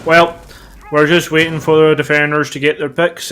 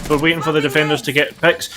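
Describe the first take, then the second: First: Put-on failed American accent. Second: Said in the usual way. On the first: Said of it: "trying to do an American accent but going Northern Irish". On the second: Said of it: "I don't know why you suddenly have a Northern Irish accent".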